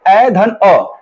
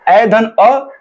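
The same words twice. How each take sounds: First: ए धन अ said very slowly, parts spaced; teacher breaking down ए धन अ slowly; slow dictation. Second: Said in the usual way. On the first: Shown as a demonstration. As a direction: spell out ए धन अ slowly for the class. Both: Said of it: "तो ए धन अ".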